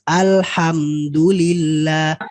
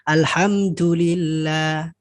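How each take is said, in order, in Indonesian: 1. Bunyi d-nya tegas dan jelas. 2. Bunyi d-nya terdengar seperti t. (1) "Maka dia jangan sampai dari dalnya itu harus tegas" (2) "Jangan sampai"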